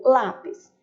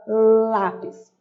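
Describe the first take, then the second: First: Said in the usual way. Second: Lápis with the tongue between the teeth, s lisped as th; interdental lisp. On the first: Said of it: "por exemplo". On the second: Shown as a demonstration. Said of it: "Coloca a língua entre os dentes".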